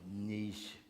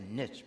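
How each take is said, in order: First: The word ends in an 'eesh' sound. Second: The word ends in an 'itch' sound. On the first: "People always tell me you're supposed to say niche, but that sounds sort of yucky" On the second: "because it rhymes with stitch and itch"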